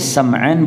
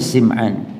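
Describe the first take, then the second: First: The first vowel is an open a sound. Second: The first vowel is a high i sound. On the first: "boleh Sam'an" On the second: "tapi yang fasih Sim'an"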